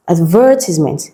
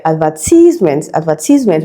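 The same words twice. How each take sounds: First: Advertisement, with the stress on VER; stress on second syllable. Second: Advertisement with stress on the tize, said ad-ver-TIZE-ment; advertisement, the common Nigerian way with the stress moved late; Nigerian pronunciation. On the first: Teacher modelling the correct stress for students. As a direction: say Advertisement as ad-VER-tis-ment. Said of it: "it becomes advertisement". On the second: Teacher imitating the typical Nigerian wrong stress. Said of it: "a typical Nigerian pronunciation". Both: Shown as a demonstration.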